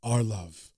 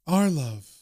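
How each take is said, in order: First: Low, soft male ghost; ghostly Freddy. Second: Lightly voiced female ghost; ghostly Laura. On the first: Retold or imitated. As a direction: answer low and hushed, as a resting ghost. And Freddy says. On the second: And Laura says.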